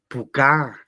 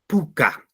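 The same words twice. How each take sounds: First: The stress is on the last syllable. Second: The stress is on the first syllable. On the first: The speaker calls it wrong. "Yo no digo puca" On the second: The speaker calls it right. "el mayor sonido en la penúltima sílaba"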